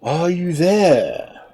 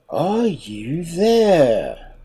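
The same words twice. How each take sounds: First: Slow, drawn-out shark call. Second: Slow, drawn-out, mildly cross shark call; a touch of impatience, calling again. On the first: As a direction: call up slowly into the tree. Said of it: "cried the shark". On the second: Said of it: "louder than before, but in a very cross voice". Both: Acted.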